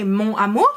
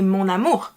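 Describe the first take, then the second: First: Mon amour as two separate words, no n sound between; without liaison. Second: Mon amour fused, the n linking into amour; with liaison. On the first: Teacher showing what French people don't say, mon amour without liaison. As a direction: keep mon and amour unlinked. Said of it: "link two words together". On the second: Teacher showing the French way, mon amour with full liaison. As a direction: link mon amour smoothly as mon-namour. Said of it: "It's kind of fused together". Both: Shown as a demonstration.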